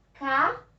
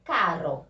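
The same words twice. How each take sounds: First: "carro" split into ca-rro, RR breathed like h; two separated syllables of "carro", throaty strong R; strong double R. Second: "caro" in a lower pitch with a flicked R; low, clear "caro" with a tongue-tip R; weak tapped R. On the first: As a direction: punch out "carro" higher, with an h-like RR. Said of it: "Com a pronúncia forte". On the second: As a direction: tap the single R lightly in "caro". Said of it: "com a pronúncia fraca". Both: Shown as a demonstration.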